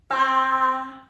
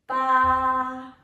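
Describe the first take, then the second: First: The pitch stays level and high. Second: The same.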